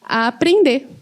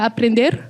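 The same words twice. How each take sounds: First: The final r sound is dropped. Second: The final r sound is pronounced. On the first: The speaker calls it right. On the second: The speaker calls it wrong.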